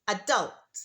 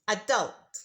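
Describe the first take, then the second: First: The stress is on the second syllable. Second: The same.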